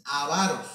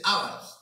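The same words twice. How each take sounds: First: Avaros stressed on the middle syllable, a-VA-ros; correct stress avaros. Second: Ávaros stressed on the first A, ÁV-a-ros; mispronounced ávaros, accent on the first syllable; wrong stress ávaros. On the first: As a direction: say avaros with the stress on VA, not on the first A. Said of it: "porque no lleva acento en la A". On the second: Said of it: "No se dice ávaros". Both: Shown as a demonstration.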